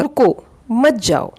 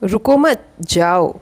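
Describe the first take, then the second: First: "रुको", a pause, then "मत जाओ" as one phrase; pause after रुको. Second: "रुको मत" run together, a pause, then "जाओ"; pause after मत. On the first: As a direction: break right after "रुको", keeping "मत जाओ" together. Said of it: "इसके लिए मैं एक एग्जांपल देना चाहूँगी". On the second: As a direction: join "रुको मत" as one phrase, "जाओ" set apart. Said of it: "और उन्होंने सुना". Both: Shown as a demonstration.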